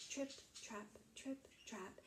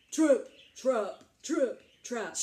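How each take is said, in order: First: Soft, tiny tripping steps; light little footsteps. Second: Loud, weighty stomps; heavy big footsteps. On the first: Littlest billy goat starting across the bridge, soft and light. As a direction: say each word softly, like small hooves. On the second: Very big billy goat crossing the bridge, loud and heavy. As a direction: land each word like a huge hoof. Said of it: "Remember, he's very big". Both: Acted.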